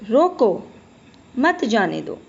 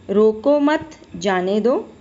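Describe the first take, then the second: First: "रोको" as a separate command, then "मत जाने दो" after a pause. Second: Slow, with "रोको मत" run together and weight on मत; slow read of "रोको मत जाने दो" with मत stressed and a rising end. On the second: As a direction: say "रोको मत जाने दो" slowly, leaning on मत so it means don't stop him. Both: Shown as a demonstration. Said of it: "अलग-अलग विराम चिन्हों का प्रयोग होने के कारण".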